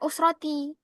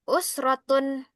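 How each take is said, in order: First: The word ends with an -i sound. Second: The word ends with an -un sound. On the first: The speaker calls it wrong. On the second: The speaker calls it right.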